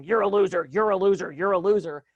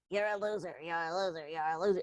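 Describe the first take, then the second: First: Loud, harsh repeated put-down; a critical father's voice hammering it in. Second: Softer, squeaky cartoon-mouse take on the put-down; silly cartoon voice. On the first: Retold or imitated. Voicing a critical father's inner voice, loud and harsh. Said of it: "your father in your head going". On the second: Mocking the inner critic in a soft cartoon mouse voice. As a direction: make the insult sound ridiculous and tiny. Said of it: "make its voice a Mickey Mouse voice".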